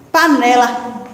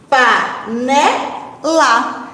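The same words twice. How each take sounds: First: Said in the usual way. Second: "panela" very slow, split into pa, ne, la; syllable by syllable. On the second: Shown as a demonstration. Teacher splitting "panela" to find its middle, slowly syllable by syllable. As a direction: stretch each syllable of "panela" with gaps. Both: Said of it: "Vamos analisar sílaba a sílaba".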